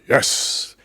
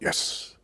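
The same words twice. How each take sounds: First: It is said with moderate energy. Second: It is said calmly with low energy.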